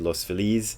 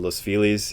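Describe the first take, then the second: First: The name is said with Spanish-style pronunciation. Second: The name is said with English-style pronunciation. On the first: It keeps its original form. The speaker calls it right. "even though it should be Los Feliz" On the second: It is treated as an English word. The speaker calls it wrong. "pronounce it the way we do because it's become an English word"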